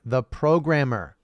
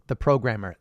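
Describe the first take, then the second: First: "programmer" drawn out slowly; emphatic repeat. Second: Said in the usual way. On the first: Shown as a demonstration. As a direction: land slowly and firmly on "programmer". Answer repeated with weight.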